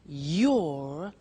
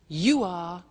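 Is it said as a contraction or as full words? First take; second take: contraction; full words. First: It is said as one contracted word. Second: It is said as two full words.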